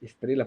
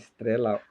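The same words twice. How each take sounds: First: Its stressed vowel differs from the vowel in bela. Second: Its stressed vowel matches the vowel in bela. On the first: This is the usual way the word is said. "em vez de ele falar talvez estrela" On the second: This may be how the poet said it then. "falava estrela"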